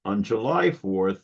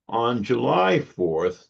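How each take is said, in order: First: Said in the usual way. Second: July stretched slow and leaned on; "On July fourth", with "July" drawn out and stressed. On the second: Shown as a demonstration. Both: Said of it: "note the symmetry of the date".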